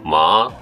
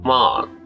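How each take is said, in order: First: The pitch dips down and then comes back up. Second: The pitch goes up and then comes back down. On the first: "一回下がってまた戻るのと" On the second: "上がって戻るのと"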